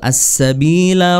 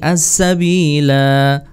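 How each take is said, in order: First: The final vowel is short, running onward. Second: The final vowel is drawn out long. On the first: The reader continues to the next words. "kalau wasal" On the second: The reader stops at this word. "Kalau waqaf atau berhenti"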